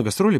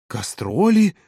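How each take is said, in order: First: Said in the usual way. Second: High rising echo of disbelief; astonished. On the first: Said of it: "Володя отвечал сдержанно". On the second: A narrator's reading. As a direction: repeat the word in amazement, pitch up. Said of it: "От удивления Ирина аж прикрыла рот рукой". (удивлённый переспрос высоким голосом)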